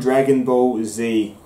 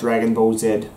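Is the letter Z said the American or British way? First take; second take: American; British. First: The letter Z is said the American way. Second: The letter Z is said the British way. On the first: "I grew up on"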